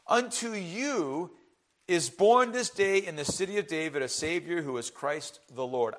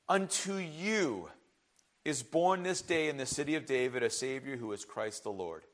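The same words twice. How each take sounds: First: It is read without special stress on any word. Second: The word you is stressed strongly.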